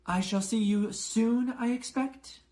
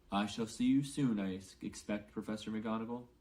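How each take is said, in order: First: Much higher, louder prim goodbye; McGonagall's farewell. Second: Dumbledore's farewell. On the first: McGonagall bids Dumbledore farewell, higher voice. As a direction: say farewell, lifted and formal. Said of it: "McGonagall's farewell then Dumbledore's". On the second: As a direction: answer gently, down in the voice. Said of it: "said Dumbledore". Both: A narrator's reading.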